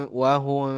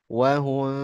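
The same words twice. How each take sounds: No difference in how they are said.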